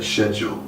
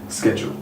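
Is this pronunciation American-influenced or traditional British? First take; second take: traditional British; American-influenced. First: It uses the traditional British pronunciation. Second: It uses the American-influenced pronunciation. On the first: This is how older people say it. "the older generation would tend to say schedule" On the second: This is how younger people say it. "ninety-nine percent of the younger generation would say schedule, me included"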